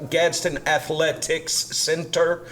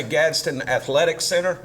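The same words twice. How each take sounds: First: "Athletics Center" with the final S of "Athletics" carefully sounded before "Center"; mouthful. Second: "Athletics Center" run together as "Athletic Center", no extra S; rolls off the tongue. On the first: Councilman showing the name is clumsy, "Athletics Center" said as a careful mouthful. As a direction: labour the "cs C" cluster in "Athletics Center". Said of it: "kind of a mouthful to say".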